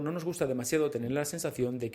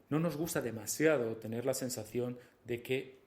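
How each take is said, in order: First: It is read quickly. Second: It is read slowly. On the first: "me ha salido bastante rápida" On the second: "con una voz más pausada"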